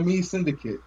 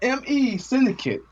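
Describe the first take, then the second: First: The first part is said as one word. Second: The first part is spelled out as letters. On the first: The speaker calls it wrong. "Don't say me" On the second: The speaker calls it right.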